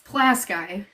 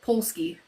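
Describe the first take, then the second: First: The name is said as Plasky. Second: The name is said as Polski. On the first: This is how locals say it. The speaker calls it right. "is it's Plasky" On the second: This is how out-of-state people say it. The speaker calls it wrong. "everybody calls it Polski, and you can tell when they're from out of state"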